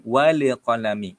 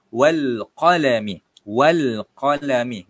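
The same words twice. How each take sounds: First: "walek qalami" with an added bounce after the l of "wal"; wrong bouncing lam on "wal"; bounced lam. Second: "wal qalami" slow and louder, lam smooth; slow clear "wal qalami" demo; correct lam, slow. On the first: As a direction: let "wal" rebound into "walek". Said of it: "bacaan yang kurang tepat". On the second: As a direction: model "wal" without a bounce. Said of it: "Sama juga dalam ayat ini". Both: Shown as a demonstration.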